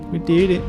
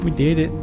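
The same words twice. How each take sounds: The two takes are said the same way.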